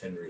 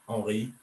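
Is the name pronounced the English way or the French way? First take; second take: English; French. First: The name is pronounced the English way. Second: The name is pronounced the French way. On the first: This is what English speakers use. "over here it's Henry" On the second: This is what the family in France uses. "all my family in France call me Henri"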